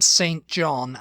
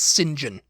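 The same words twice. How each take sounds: First: It is said as two separate full words. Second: It is said run together as one short word. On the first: "pronounce the surname Saint John" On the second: "as Saint John"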